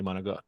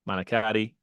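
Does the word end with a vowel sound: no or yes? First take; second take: no; yes. First: The word ends on a consonant, vowel dropped. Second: The word ends with a final vowel sound. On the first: This is how the speaker's family says it. "but we say manigat" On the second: This is how Americans say it. "You Americans will pronounce the I on the end"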